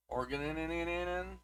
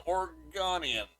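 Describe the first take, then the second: First: "Oregonian" slowed with the ending repeated, nee-nee-nee-nee; comic mispronunciation of "Oregonian" with a stuttered ending; deliberate butchering. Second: Said in the usual way. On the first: Shown as a demonstration. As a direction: mangle "Oregonian" on purpose, trailing off softer. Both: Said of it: "I'm butchering these somewhat on purpose".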